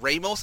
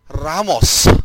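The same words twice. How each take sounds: First: The name is said with an Anglicized pronunciation. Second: The name is said with a Filipino pronunciation. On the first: The speaker calls it wrong. "no, it's not pronounced that way" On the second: The speaker calls it right.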